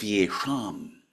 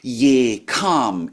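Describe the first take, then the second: First: The middle consonant is a sh sound. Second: The middle consonant is a k sound. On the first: "instead of ye sham" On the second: "the Tibetans are saying ye kam"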